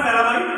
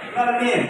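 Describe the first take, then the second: First: The last syllable sounds like 'mine'. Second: The last syllable sounds like 'meen'. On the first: The speaker calls it wrong. "এটা ছোটবেলা আমরা ভুল বলতাম" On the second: The speaker calls it right. "কি হবে এটা?"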